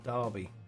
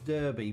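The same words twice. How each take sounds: First: It is said with a British pronunciation. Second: It is said with an American pronunciation. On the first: The speaker calls it right. "the proper way of pronouncing that is Derby" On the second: The speaker calls it wrong. "So they would say it as Derby"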